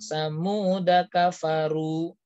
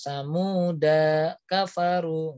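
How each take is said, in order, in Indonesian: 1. Vokal terakhir samuda dibaca pendek. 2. Vokal terakhir samuda dibaca panjang. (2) "nggak boleh panjangkan"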